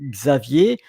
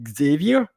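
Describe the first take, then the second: First: The name is said with French pronunciation. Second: The name is said with English pronunciation. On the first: "in French, Xavier" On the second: "in English, probably uh, Xavier"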